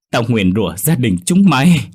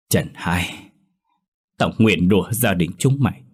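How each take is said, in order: First: Screamed curse, louder and higher; thét nguyền rủa. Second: Giận dữ nguyền rủa. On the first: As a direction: hurl the curse out at full force. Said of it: "thét lên thật lớn". (bà cụ thét lên lời nguyền, cao và to) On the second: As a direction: spit the curse with restrained rage. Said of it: "Bà cằn trong sự tức giận". (bà cụ nguyền rủa trong cơn giận, giọng kìm nén) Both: A narrator's reading.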